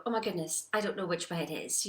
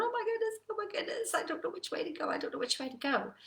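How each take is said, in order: First: Said in the usual way. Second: High-pitched fluster, easing down in pitch; mock panic of a stuck driver; mounting frustration, acted. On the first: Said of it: "but then you go". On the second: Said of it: "You're getting more and more frustrated".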